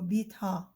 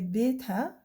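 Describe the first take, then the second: First: The final long a vowel sounds deeper. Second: The final long a vowel sounds regular. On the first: "the deeper sound of uh, the long vowel sound a" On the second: "we say betha for the, for the Levantine"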